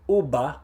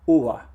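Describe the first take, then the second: First: The lips close fully for a hard b. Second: The lips come close but never touch. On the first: "say the B sound, uba, uba, but my lips are touching" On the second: "There's definitely a consonant there. It's just not a consonant that we have in English"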